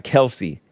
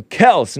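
First: "Kelsey" in two syllables, ending in ee; "Kelsey" as KEL-see; rejected pronunciation. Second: "Kels" as one syllable, punched higher; "Kels" stressed, ending on s; own pronunciation. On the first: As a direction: add an ee after "Kels" to make "Kelsey". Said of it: "not Kelsey". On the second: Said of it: "So I call him Kels, not Kelsey". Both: Shown as a demonstration.

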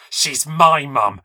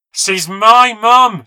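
First: Slow, forceful, higher-pitched anger; furious hiss. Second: Slow, high-pitched scream of rage; furious scream. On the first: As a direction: hiss it slowly through gritted teeth. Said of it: "she hissed through gritted teeth". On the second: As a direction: scream it like a child stamping in a tantrum. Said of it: "she screamed, stamping her feet". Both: Acted.

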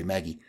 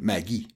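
First: Said in the usual way. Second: Maggie said the French way; French pronunciation. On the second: Shown as a demonstration. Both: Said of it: "which we would say Maggie".

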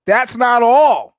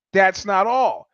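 First: Loud, high, drawn-out announcement; big dramatic storyteller's declaration; emphatic. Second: Said in the usual way. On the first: Real, not acted. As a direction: slowly punch out each word, raised and loud. Builds suspense in the injury story.

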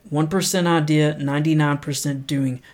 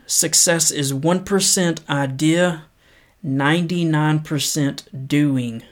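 First: Said in the usual way. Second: Measured, unhurried reading of a quote; paced motivational read; slow inspirational quote reading. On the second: Acted. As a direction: read it slow and earnest, letting each line land. Reads quote slowly.

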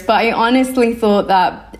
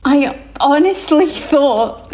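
First: Said in the usual way. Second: Stifling a laugh mid-sentence; words breaking into giggles. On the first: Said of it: "I'm trying to be serious". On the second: Real, not acted. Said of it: "I'm trying not to laugh".

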